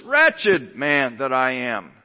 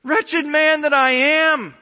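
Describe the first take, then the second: First: Slow, front-loaded emphasis on Wretched; stress on Wretched. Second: Loud, high, long-held despairing cry; preacher acting out anguish at full voice. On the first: Shown as a demonstration. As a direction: punch "Wretched" up front, then let the line drop slowly. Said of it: "wretched is right up front. Emphasis". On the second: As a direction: wail it slowly, like an anguished confession. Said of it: "this cry of despair".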